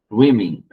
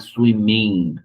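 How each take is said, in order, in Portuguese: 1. A primeira sílaba é que leva a ênfase. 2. A terminação -ing é que leva a ênfase. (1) "a sílaba antes do ing é mais forte" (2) "Não é swimming"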